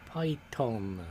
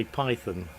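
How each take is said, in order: First: "Python" with a plain T, as "Pie-ton"; Python without the H. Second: "Python" with a TH in the middle. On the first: Streamer reading a viewer's name, "Python" said as Pie-ton. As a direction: say "Python" as Pie-tonn, no TH sound. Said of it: "Can I put a H in there and say Python?". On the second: Asking to rename a viewer, "Python" said with TH. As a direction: say "Python" like the snake, PIE-thun. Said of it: "put a H in there and say Python". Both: Shown as a demonstration.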